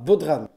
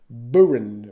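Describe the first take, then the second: First: The word has a d sound in the middle. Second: The word has no d sound in the middle. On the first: The speaker calls it wrong. "ça se prononce pas Bodran" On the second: The speaker calls it right. "ça se prononce Boren"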